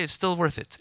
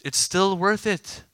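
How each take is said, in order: First: Said in the usual way. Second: Slow, louder stress on "worth it"; emphatic repeat. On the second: Real, not acted. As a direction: drive home "still worth it", higher and drawn out.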